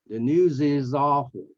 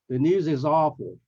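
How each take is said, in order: The two takes are said the same way.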